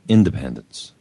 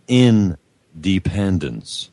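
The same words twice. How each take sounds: First: It is said as one single word. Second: It is split into two separate words. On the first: It means being free and self-governing. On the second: It means being in a state of dependence.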